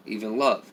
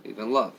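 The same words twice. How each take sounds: The two takes are said the same way.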